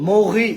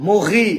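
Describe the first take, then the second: No difference in how they are said.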